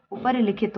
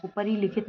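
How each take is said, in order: First: "उपरी लिखित" with short "ri"; correct short vowel. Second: "उपरी लिखित" with long "ree"; wrong long vowel. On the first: Teacher gives the correction, short "ri" in "उपरी लिखित". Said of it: "उपरी लिखित होता है". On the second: Teacher shows the mistake, long "ree" in "उपरी लिखित". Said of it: "ना होके". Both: Shown as a demonstration.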